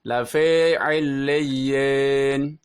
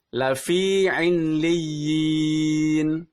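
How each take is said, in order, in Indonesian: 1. Vokal i condong ke bunyi e. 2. Vokal i terdengar seperti i murni. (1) "huruf atau vokal i-nya terdengar agak ke e" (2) "Yang benar adalah"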